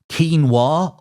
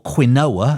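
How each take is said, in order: First: The word is said in its current pronunciation. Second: The word is said in an older, former pronunciation.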